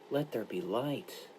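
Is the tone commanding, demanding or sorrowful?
sorrowful. It is said as a sorrowful request.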